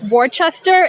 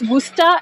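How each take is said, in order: First: It is pronounced just as it is spelled. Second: It is pronounced differently from its spelling. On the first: The speaker calls it wrong. "the way it's spelled sounds like it should be pronounced Worcester. It's not" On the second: The speaker calls it right. "It's Worcester"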